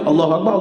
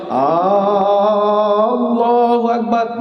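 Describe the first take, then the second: First: The opening vowel of Allahu is short. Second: The opening vowel of Allahu is drawn out long. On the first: God is great. The speaker calls it right. "Patutnya Allahu Akbar, Allah Maha Besar" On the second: It asks whether God is great. The speaker calls it wrong. "Bila panjang hamzah, maka dia jadi hamzah istifham"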